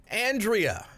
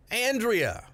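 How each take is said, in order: Both takes have the same delivery.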